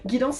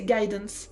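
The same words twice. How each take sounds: First: The word is pronounced the French way. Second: The word is pronounced the English way.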